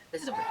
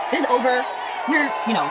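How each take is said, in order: First: Sigh, then whisper This is over with no voice. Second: Exasperated outburst. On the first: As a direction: breathe This is over out like a worn-out groan. Sighed exhausted verdict. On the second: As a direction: throw This is over out in frustration. Exasperated loud verdict on film. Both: Real, not acted.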